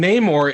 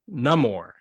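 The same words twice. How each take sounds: First: The first vowel is a long A sound. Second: The first vowel is a short A sound. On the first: The speaker calls it wrong. "we've been saying Namor incorrectly" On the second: The speaker calls it right. "it's not the long A"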